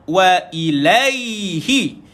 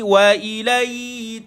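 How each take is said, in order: First: The final h syllable is pronounced clearly. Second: The h sound is dropped or blurred. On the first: The speaker calls it right. "hi satu harakat" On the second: The speaker calls it wrong. "Ibi tak nak tuan-tuan baca wa ilai"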